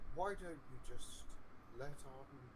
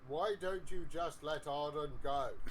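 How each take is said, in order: First: It is said quietly and softly. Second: It is said loudly, almost yelled. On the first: "No one could hear you say what you just said" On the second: "A little louder, please. / you made me yell it"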